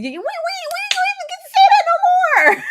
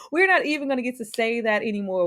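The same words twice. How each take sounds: First: High, loud wail through laughter; laughing shout. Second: Said in the usual way. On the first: Real, not acted. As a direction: cry it out while cracking up. Mourning the show's ending, laughing.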